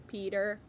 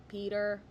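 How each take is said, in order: No difference in how they are said.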